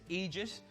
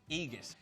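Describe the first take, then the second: First: The middle consonant is a soft j sound. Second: The middle consonant is a hard g sound. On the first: "two ways to say this" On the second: "just replace the G, the J with a G"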